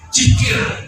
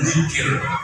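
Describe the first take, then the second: First: The word starts with a j sound. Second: The word starts with a soft dh sound. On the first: The speaker calls it wrong. "Bahkan ada yang pakai jim" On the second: The speaker calls it right. "Kalau di sini mungkin kita mampu mengucapkan zikir"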